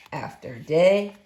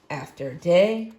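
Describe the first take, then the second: No difference in how they are said.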